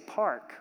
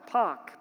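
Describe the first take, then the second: First: It is said with a general accent, R pronounced. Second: It is said Boston style, without the R.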